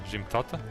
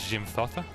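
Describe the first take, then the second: The two takes are said the same way.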